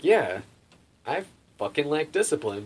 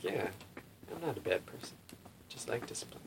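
First: Retold realization, "fucking lack discipline" said louder; emphatic realization. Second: Half-convinced musing. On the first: Man really thinking over the swami's verdict, emphatic realization. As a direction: hit "fucking lack discipline" firmly, with conviction. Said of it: "really thinking about it". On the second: Retold or imitated. Man mulls over the swami's verdict, half-convinced musing. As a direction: murmur it to yourself as a passing thought. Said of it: "kinda thought about that".

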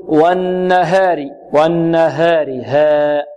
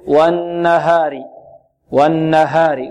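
First: والنهار with haa tilted toward hee, like 'heh'; slow recited والنهار, mistakenly fronting the aa after h; taqlil of the haa. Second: والنهار with a clear open haa, light and untilted; slow recited والنهار, keeping the aa pure; correct open haa. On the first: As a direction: bend the ها toward an e sound. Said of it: "هذا تقليل". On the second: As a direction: open the ها without leaning to e. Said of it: "الصحيح". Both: Shown as a demonstration.

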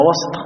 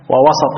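First: وسط as one syllable, wasT; no vowel between s and T in وسط; sukun on the seen. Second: وسط as two syllables, wa-saT; short a after the s in وسط; fatha on the seen. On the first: Teacher repeating the language point, unvowelled seen in وسط. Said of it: "وإسكان السين". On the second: Teacher repeating the language point, opened seen in وسط. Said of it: "فتح السين". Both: Shown as a demonstration.

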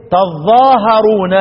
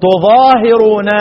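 First: "تظاهرون" as taẓ-ẓaa-ha-ruu-na, drawn out slowly; slow "تظاهرون" with a on ت, doubled ظ, a on هـ; Ibn Amir's reading. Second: "تظاهرون" as tu-ẓaa-hi-ruu-na, drawn out slowly; slow "تظاهرون" with u on ت, single ظ, i on هـ; Asim's reading. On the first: Teacher summing up Ibn Amir's reading of "تظاهرون", slow taẓ-ẓaa-ha-ruu-na. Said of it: "يبقى يقرأ ابن عامر ايه؟". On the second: Teacher recalling Asim's reading of "تظاهرون", slow tu-ẓaa-hi-ruu-na. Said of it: "وسبق عاصم". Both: Shown as a demonstration.

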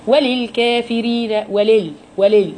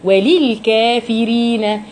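First: وللكافرين with the kasra of لِ swallowed; snatched vowel. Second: وللكافرين with لِ clearly as لي; full kasra. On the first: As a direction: rush the لِ in وللكافرين, the wrong way. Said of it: "اختلاس الحركات". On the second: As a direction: give the kasra under لِ its full sound. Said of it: "اكسر كويس". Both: Shown as a demonstration.

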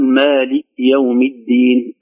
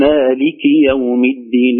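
First: Slow مالك يوم الدين, مالك ending on a bare k; kaf vowel dropped. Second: Slow مالك يوم الدين, مالك ending in a clear -ki; clear kasra on kaf. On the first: Teacher showing the mistake, مالك said malik. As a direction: cut the final i off مالك. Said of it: "لا نقول". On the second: Teacher modelling the verse, مالك said maliki. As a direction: sound the final i of مالك distinctly. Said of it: "بل نبين كسرة الكاف". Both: Shown as a demonstration.

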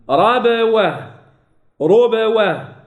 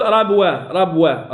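First: Slow, drawn-out ربوة with bouncing b; qalqala then move on. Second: Hurried ربوة with b stuck to w; no qalqala. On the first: Teacher modelling unhurried articulation, slow bounced baa. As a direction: stretch ربوة and echo the b before w. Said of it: "أقلقل ثم أنتقل". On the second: Teacher showing what not to say, unbounced baa. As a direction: run b into waw in ربوة, as a mistake. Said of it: "لا قل". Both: Shown as a demonstration.

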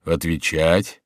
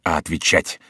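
First: "Отвечать" with a questioning rise at the end; echoed question. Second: "отвечать" stated low with a closing fall; firm statement. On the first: Monk queries the advocate's order, "Отвечать" rising. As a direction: echo "Отвечать" back as a question. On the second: Advocate correcting the monk, "отвечать" as a firm order. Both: A narrator's reading.

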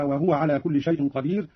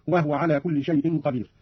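First: Said in the usual way. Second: "وهو" said "wahwa"; silent-vowel ha. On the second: Shown as a demonstration. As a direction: close the h of "وهو" onto the w. (إسكان الهاء في "وهو") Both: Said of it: "أيضا بإسكان الهاء".

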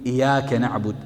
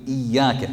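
First: إياك with a light single ya, iyaka; إياك said loosely, ya not held; wrong shadda. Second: إياك with a held doubled ya, iyyaka; إياك said carefully with the ya held long. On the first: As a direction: say إياك without doubling the ya. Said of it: "حرفت المعنى". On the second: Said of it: "تشديد". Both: Shown as a demonstration.

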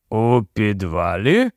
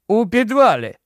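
First: Surprised echo. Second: Said in the usual way. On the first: A narrator's reading. Policeman echoes in surprise.

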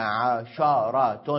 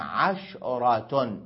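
First: عشرة as ʕasharah, shin voweled with fatha; open shin. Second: عشرة as ʕashrah, shin with sukun, Tamim usage; silent shin. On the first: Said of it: "بفتح الشين". (عشرة بفتح الشين) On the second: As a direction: say عشرة slowly with no vowel after the shin. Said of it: "ويجوز الإسكان على لغة تميم". (عشرة بإسكان الشين على لغة تميم) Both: Shown as a demonstration.

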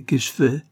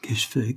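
First: Louder and higher, rising in dismay; cried aloud. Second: Said in the usual way. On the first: A narrator's reading. Barbara alone after Carlyle leaves, crying aloud. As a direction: cry it out in despair. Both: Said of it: "s'écria-t-elle à haute voix".

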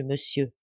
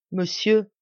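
First: A quiet, tearful address; voix basse et émue; softly tearful. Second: A touch of tears, rising plea; a mild tearful call; voix un peu larmoyante. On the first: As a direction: let it fall away softly. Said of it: "les larmes commencent à couler". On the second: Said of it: "le visage baigné de larmes". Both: Acted.

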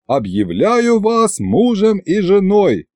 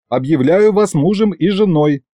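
First: Slow, high-pitched formal pronouncement; stately drawn-out wedding announcement; ceremonial proclamation. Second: Quick, perfunctory wedding pronouncement; brisk officiant's patter, pitched up; hurried patter. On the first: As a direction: proclaim it grandly, stretching the words. Officiant solemnly finishes the ceremony. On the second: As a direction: rattle off the formula in one go. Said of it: "скороговоркой проговорил я". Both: A narrator's reading.

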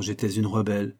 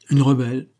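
First: Said in the usual way. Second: "Une rebelle" repeated louder, with a lift on "Une"; "Une rebelle" thrown back at her, delighted; gleeful echo. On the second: A narrator's reading. Henry gleefully echoing Shirley's word back at her, louder. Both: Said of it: "répéta Henry".

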